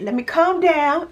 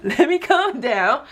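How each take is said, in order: First: High, giggly self-calming; laughing at herself. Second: Slower, laughing, settling down; softer laughing repeat. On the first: Reining herself in for her viewers, laughing high. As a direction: laugh it off as she reins herself in. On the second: Calming herself down for viewers, slow and laughing. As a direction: ease off through the laugh. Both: Real, not acted. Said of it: "I'm getting a little excited".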